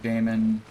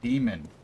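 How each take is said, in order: First: The first syllable sounds like 'day'. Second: The first syllable sounds like 'dee'. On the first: The speaker calls it wrong. "when people pronounce it like Damon" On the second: The speaker calls it right. "that word is pronounced demon, same as D E M O N"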